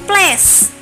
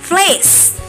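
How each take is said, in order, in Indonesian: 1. Vokalnya bukan bunyi 'ay'. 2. Vokalnya bunyi 'ay'. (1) "Bukan place" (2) "tapi place"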